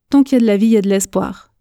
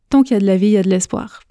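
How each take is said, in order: The two takes are said the same way.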